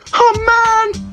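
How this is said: It is said like a whiny toddler.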